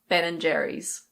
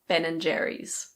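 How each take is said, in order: The two takes are said the same way.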